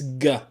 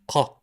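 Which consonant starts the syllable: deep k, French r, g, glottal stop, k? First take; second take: g; deep k. First: It starts with a hard g sound. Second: It starts with a thick, deep k sound. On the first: This is how some dialects say it. "like a G in girl" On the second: This is the official standard pronunciation. "like a thick ka"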